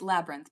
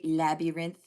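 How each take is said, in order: First: The word is said in its standard pronunciation. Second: The word is said in an unusual, odd pronunciation. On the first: This is the usual way to say it. "It's labyrinth, by the way" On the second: It copies how someone else said it. "That's how my high school teacher said it"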